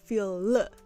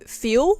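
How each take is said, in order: First: It ends with a clear L sound. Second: It ends with a W-like sound.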